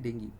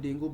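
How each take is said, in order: First: The word ends with an 'ee' sound. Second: The word ends with an 'oo' sound. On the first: The speaker calls it right. "वैसे इसको बोला जाता है डेंगी" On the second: The speaker calls it wrong. "हम Indian लैंग Indian accent में डेंगू बोल देते हैं"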